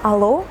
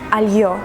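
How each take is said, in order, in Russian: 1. Сказано обычным русским способом. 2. Сказано по-турецки. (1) "мы говорим алло" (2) "они говорят альё"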